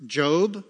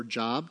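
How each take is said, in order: First: Said in the usual way. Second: Job said like the everyday word job; alternative pronunciation. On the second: Shown as a demonstration. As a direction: say Job to rhyme with rob. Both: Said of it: "depending on your pronunciation".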